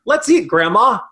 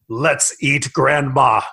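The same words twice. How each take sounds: First: "Let's eat," then a clear comma pause and rising "Grandma"; pause before Grandma. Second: "Let's eat, Grandma." run together low, falling on "Grandma". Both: Shown as a demonstration. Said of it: "the difference between".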